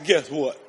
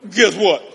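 First: Said in the usual way. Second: Second guess what louder with a falling end; louder, punched guess what. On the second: Shown as a demonstration. Preacher repeats guess what to the pastor, louder. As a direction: repeat it with more force.

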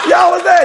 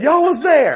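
First: Much higher, loud shout; louder call. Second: High, loud call to the crowd. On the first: Preacher repeating his call to the crowd even louder. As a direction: really lift it and shout it out. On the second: Preacher calling out to the crowd, high and loud. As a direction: shout it up at the congregation. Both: Real, not acted.

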